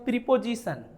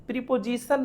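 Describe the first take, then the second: No difference in how they are said.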